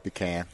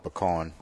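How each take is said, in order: First: PECAN as "pee-CAN"; the other's pronunciation. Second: PECAN as "puh-KAHN"; own pronunciation. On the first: Guest telling host how he says it, pee-CAN pronunciation. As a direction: say pecan with long ee and flat "can". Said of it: "You call it pecan". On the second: Guest telling host his own way, puh-KAHN pronunciation. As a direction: stress the end of pecan, a broad "kahn". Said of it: "I call it pecan". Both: Shown as a demonstration.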